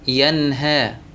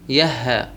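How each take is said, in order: First: The n sound before the h is clear. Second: The n sound before the h is dropped. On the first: The speaker calls it right. "لابد من الإظهار" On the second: The speaker calls it wrong. "ما ينفع نقول يهى"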